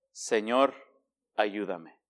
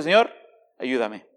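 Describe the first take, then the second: First: Much softer and lower, a hushed plea; soft prayer. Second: Said in the usual way. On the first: Shown as a demonstration. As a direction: breathe it out like a humble prayer. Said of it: "¿Sabe cuál ha sido mi mejor oración?". (súplica muy suave y baja) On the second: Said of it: "Mi mejor oración ha sido".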